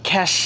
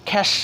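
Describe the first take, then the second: Both takes have the same delivery.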